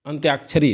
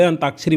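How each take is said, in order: First: अंत्याक्षरी with a "y" glide after the t; correct form demonstrated. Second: अंताक्षरी with plain "taa", no glide; everyday wrong form. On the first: Teacher tells students what to read, correct form demonstrated. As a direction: say अंत्याक्षरी as ant-yaak-sha-ri. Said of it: "अंत्याक्षरी पढ़िए". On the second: Teacher quotes what people say, everyday wrong form. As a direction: say अंताक्षरी as an-taak-sha-ri. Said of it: "भले अंताक्षरी बोलते हैं". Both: Shown as a demonstration.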